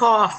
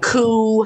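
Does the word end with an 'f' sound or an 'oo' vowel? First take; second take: f sound; oo vowel. First: The word ends with an 'f' sound. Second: The word ends on an 'oo' vowel. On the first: The speaker calls it right. "no, it's cough" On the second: The speaker calls it wrong. "He had a coo"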